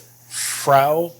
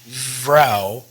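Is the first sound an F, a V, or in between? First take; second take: F; V. First: The word begins with a clear F sound. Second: The word begins with a strong V sound. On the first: "instead of Frau" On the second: "or Vrou"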